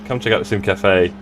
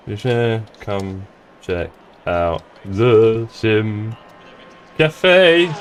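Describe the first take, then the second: First: Said in the usual way. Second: Slow, halting, word by word; typing aloud. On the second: Real, not acted. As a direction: stretch each word while you type it. Typing a message while saying it.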